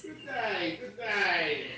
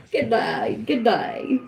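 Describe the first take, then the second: First: Soft, prim queen's greeting; a hint of a haughty queen; mock posh British greeting. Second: Louder, brighter take of the greeting; mock British greeting. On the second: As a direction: announce yourself like a hammed-up royal. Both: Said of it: "The queen has arrived".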